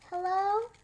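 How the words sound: The voice sounds sad and lonely. The person feels alone. "we're going to do it sad"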